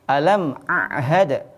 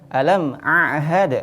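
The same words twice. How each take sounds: No difference in how they are said.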